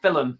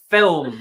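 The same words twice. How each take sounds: First: "film" split as fil-um; two-syllable film. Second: "film" in one syllable, louder; no vowel between l and m in "film". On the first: Showing Lainey's mistake, "film" said as fil-um. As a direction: add an uh before the m in "film". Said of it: "it's not two syllables". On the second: Correcting Lainey emphatically, "film" as one syllable. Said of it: "It's one syllable". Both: Shown as a demonstration.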